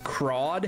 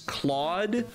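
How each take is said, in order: First: The name is said with an R sound. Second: The name is said with an L sound. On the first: The voice actors were unsure of the name. The speaker calls it wrong. "they pronounce it Crawd half the time" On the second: This is the character's actual name. The speaker calls it right. "the main character's name is Claude"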